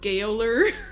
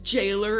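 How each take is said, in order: First: The word starts with a hard 'g' sound. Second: The word starts with a soft 'j' sound. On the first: The speaker calls it wrong. "and not Gaoler" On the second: The speaker calls it right. "is jailer"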